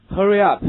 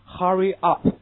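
First: Loud American "Hurry up", r-coloured schwa in Hurry; American English. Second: British "Hurry up" with an open uh in Hurry; British English. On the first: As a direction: model "Hurry up" loudly with American vowels. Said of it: "这是美式读法". (美式发音大声读Hurry up) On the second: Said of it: "这是英国人的读法". (英式发音读Hurry up) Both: Shown as a demonstration.

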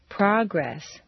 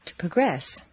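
First: First syllable of "Progress" stressed; "Progress" as a noun, PRAH-gress. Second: Second syllable of "progress" stressed; "progress" as a verb, pruh-GRESS. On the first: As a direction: hit PROG in "Progress". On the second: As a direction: hit GRESS in "progress", reduce the first vowel. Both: Shown as a demonstration. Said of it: "regular transitions of nouns and verbs".

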